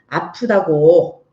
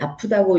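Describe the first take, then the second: First: It is said in an irritated, annoyed tone. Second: It is said in a plain, neutral tone. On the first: "아이 말투는 이럴 거예요. ... 짜증 냈겠죠" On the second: "아마 여기는 "아프다고." 이러는데"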